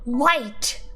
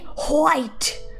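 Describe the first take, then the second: First: The H sound is left out entirely. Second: The H sound is pronounced before the W. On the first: The speaker calls it right. "We say white. We don't pronounce the H" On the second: The speaker calls it wrong. "We don't say white"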